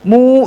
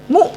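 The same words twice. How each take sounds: First: The vowel is stretched over two beats. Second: The vowel is held for one short beat. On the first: The speaker calls it wrong. "jangan mu udah dua tuh" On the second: The speaker calls it right. "Satu mu aja"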